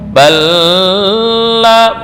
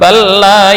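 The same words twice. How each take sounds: First: The merged L is held with a nasal hum. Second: The merged L passes quickly without a hum. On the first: The speaker calls it wrong. "Bukan dibaca dengan dengung. Balla, enggak, bukan itu maksudnya" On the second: The speaker calls it right. "tapi hanya sekedar lewat"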